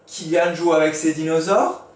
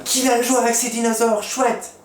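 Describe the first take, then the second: First: Rising question tune on dinosaures; question intonation. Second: Much higher, louder, delighted; super happy exclamation. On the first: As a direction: ask it as a real question. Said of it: "Point d'interrogation". (intonation interrogative montante) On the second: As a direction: exclaim it with joy like Monsieur Exclama. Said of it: "Ce qui est super content ou qui s'exclame". (Monsieur Exclama, très content et enthousiaste) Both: Shown as a demonstration.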